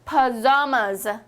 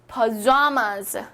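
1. 가운데 음절에는 강세가 있어요. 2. 가운데 음절에는 강세가 있어요.

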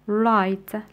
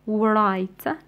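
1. حرف W في البداية صامت. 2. حرف W في البداية منطوق. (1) "لا نسمع W" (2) "لا نقول right"

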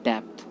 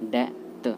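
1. अंतिम ध्वनि से पहले एक व्यंजन सुनाई देता है। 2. अंतिम ध्वनि से पहले कोई व्यंजन सुनाई नहीं देता। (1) "इसको हम बोलते हैं डेप्थ बोल लेंगे" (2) "इसमें बी साइलेंट हो जाता है और इसका राइट प्रोनंसिएशन हो जाता है डेथ"

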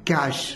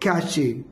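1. यह शब्द sh ध्वनि से खत्म होता है। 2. यह शब्द ch ध्वनि और एक स्वर से खत्म होता है। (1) "इसका राइट प्रोनाउंसिएशन है कैश" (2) "बट इज रॉन्ग"

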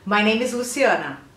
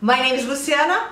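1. É falada devagar e com cuidado. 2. É falada em velocidade normal e natural. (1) "a gente vai repetir devagarinho" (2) "eu vou fazer na velocidade real"

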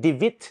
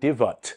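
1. สระตัวที่สองออกเสียงเหมือน ee 2. สระตัวที่สองออกเสียงเหมือน er (1) "มันก็ไม่ได้สระอีคือ" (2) "มันก็ไม่ได้สระเออคือ"

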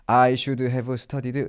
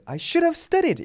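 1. 감정 없이 밋밋하게 말해요. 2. 후회하는 감정을 강하게 실어서 말해요. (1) "막 이렇게, 물론 이렇게 외우시는 분들 없겠지만" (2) "이렇게 감정 실어서"

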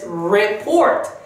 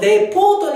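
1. 丸くて「u」のようなR音で始まります。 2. 日本語の平らな「re」の音節で始まります。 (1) "しっかりとウから入るR です。" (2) "レから発音してしまうとレポートになるのでお気をつけください"

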